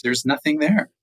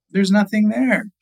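First: Understated disbelief, close to usual voice; milder dismay. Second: High-pitched dismayed exclamation; upset discovery. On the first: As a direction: repeat the discovery with only a touch of dismay. Same discovery repeated, more subdued. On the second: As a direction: cry out in startled dismay, pitched way up. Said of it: "he's upset". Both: Acted.

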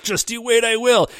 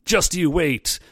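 First: Higher, pushed out with resolve; mean it, make it a promise; determined vow. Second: Said in the usual way. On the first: Retold or imitated. Koji vowing to the rival, a touch fierce. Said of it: "he's like". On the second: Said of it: "Koji's like".

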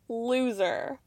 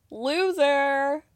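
First: Flat repeat. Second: The word "Loser." sneered in a put-on voice; mocking taunt. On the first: Real, not acted. Viewer repeating "Loser." flatly under her breath. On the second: Viewer taunting Cody with a sneered "Loser.". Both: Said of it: "such a loser".

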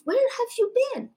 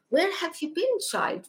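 First: Much higher and faster, pressing the question; urgent elder plea. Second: Put-on raised, gently pleading old priest; gentle elder voice. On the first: Retold or imitated. Pope pressing the child again, high and urgent. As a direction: repeat it, more urgent and up high. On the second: Pope asking a child where she has been, in a raised gentle voice. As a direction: ask it like a tender old holy man. Pope greets her in vision.

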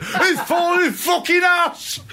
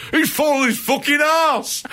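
First: Drawn-out, very high Lancashire shout; Davey Boy Smith. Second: High-pitched imitated shout; Davey Boy Smith. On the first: Retold or imitated. Co-host mimics wrestler for laughs, high Lancashire-accented shout. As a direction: yell it slowly in a broad Lancashire accent. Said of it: "in his Lancashire accent". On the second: Co-host mimics wrestler shouting in the background, high imitated shout. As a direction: yell it out, much higher than usual. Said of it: "I think he shouts".

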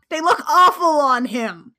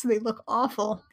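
First: Louder and higher, awful punched hard; "awful" stressed, loud and disgusted; emphatic disgust. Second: Said in the usual way. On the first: Real, not acted. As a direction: really lean into "awful". Repeating the complaint with emphasis.

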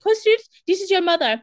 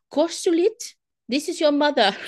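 First: High, loud, eerie spirit call; hammed-up ghost mother; ghostly mother voice. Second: A hint of a ghostly mother calling her son.

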